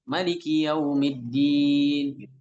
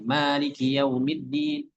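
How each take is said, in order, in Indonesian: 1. Vokal pertama pada Maliki dibaca pendek. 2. Vokal pertama pada Maliki dibaca panjang. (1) "beliau baca pendek" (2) "kan kita baca bacanya panjang"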